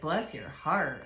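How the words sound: It is said in a judgmental, mocking way.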